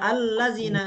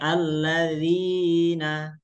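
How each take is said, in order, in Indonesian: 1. Vokal setelah dz dibaca pendek. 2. Vokal setelah dz dibaca panjang. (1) "tidak boleh dibaca allazina" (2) "Panjang ya alladzina"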